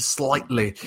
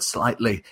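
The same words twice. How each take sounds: First: Said in the usual way. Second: Slightly said on its own with a falling tune; stress on slightly. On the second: Shown as a demonstration. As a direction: lean on the word slightly and let it fall. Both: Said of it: "emphasis on that word".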